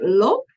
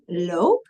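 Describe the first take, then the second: First: "lop" with a short, open O; punchy "lop", short vowel. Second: "loop" with a long Dutch O, like "lope"; lengthened O in "loop", said as "lope". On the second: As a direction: hold the O in "loop". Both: Shown as a demonstration. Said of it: "to hear that long sound".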